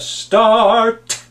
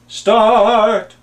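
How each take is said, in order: First: The final T is released crisply and explosively. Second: The final T is weak or dropped. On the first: Listeners clearly understand the word. The speaker calls it right. "instead of start" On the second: Listeners are not sure what word is meant. The speaker calls it wrong. "you go start"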